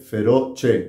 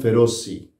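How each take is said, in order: First: The name ends with an 'eh' sound. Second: The name ends with an 'ee' sound. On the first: This follows how the name is spelled. "pero se escribe Feroce con C E" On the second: This is how Americans say the name. "Los gringos lo pronuncian Feroci"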